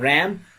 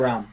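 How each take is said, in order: First: It is said with an American 'a' vowel. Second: It is said with a British 'ah' vowel.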